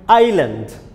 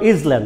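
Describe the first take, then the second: First: The s sound in the middle is silent. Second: The s sound in the middle is pronounced. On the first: The speaker calls it right. "Here S is silent. It will be pronounced like island" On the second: The speaker calls it wrong. "don't pronounce Island"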